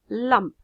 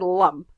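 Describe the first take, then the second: First: The l is light, with the tongue forward. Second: The l is dark, with the tongue pulled back. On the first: It sounds like a native English speaker. The speaker calls it right. "your tongue hits the front of your palate" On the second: It sounds like a Russian speaker of English. The speaker calls it wrong. "I would probably just sound Russian"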